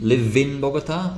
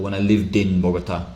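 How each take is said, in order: First: The ending sound after live is dropped. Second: The ending sound links into the next vowel. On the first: The speaker calls it wrong. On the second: The speaker calls it right.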